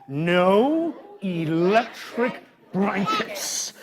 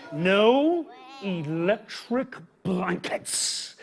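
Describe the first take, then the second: First: Chanted, very slow, stretched, for the crowd to echo; chanted, drag it out so the kids follow; drawn-out chant. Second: Very slow, each word stretched; drawn-out refusal. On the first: Shown as a demonstration. Chanted, host leading kids in the slow refusal. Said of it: "Everybody say". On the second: Acted. Reading the farmer's refusal to kids, very slowly. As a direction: drag out every word. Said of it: "Now they wanted electric blankets".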